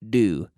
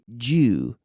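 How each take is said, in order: First: The word sounds just like 'do'. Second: The word sounds different from 'do'. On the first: This is how the speaker says it. "and I say do, just like do" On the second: Some other speakers say it this way. "Some people say due"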